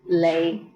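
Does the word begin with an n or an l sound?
l. The word begins with an l sound.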